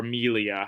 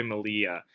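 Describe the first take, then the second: First: Melia said as MEE-lee-uh; alternative pronunciation. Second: Melia said as muh-LEE-uh; alternative pronunciation. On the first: Presenter unsure of the Spanish name, offering Melia as MEE-lee-uh. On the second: Presenter offering one way to say the brand name, Melia as muh-LEE-uh. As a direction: say Melia with a weak first vowel, stress on LEE. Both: Shown as a demonstration. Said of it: "however you'd like to say it".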